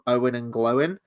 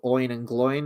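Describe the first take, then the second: First: The names are said with two-syllable vowels. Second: The names are said with one-syllable vowels. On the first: This is the author's own pronunciation. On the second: This is the usual film pronunciation.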